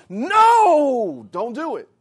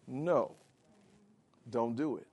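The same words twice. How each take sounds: First: A forceful, urgent no to stop it; emphatic no. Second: Soft no. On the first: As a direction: slam the No down hard. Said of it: "an emphatic no". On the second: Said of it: "that word in the Greek is an emphatic no". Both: Shown as a demonstration.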